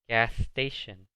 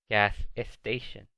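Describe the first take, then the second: First: Station starts directly with the s sound. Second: An extra e vowel comes before station. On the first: The speaker calls it right. "se pronuncia gas station" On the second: The speaker calls it wrong. "No se pronuncia gas station. No pongan esa E"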